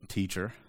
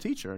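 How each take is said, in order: First: It is said mockingly, with a sneer. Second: It is said warmly, with admiration. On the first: The speaker mocks the person addressed. "You can almost hear like the sneer kind of in the voice" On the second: The speaker respects the person addressed. "Rabbi is like a term of like compliment"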